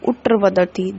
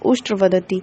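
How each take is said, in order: First: The first word is said without a 'sh' sound. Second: The first word is said with a 'sh' sound. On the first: The speaker calls it wrong. "अशुद्ध उच्चारण" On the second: The speaker calls it right. "बोलना चाहिए था"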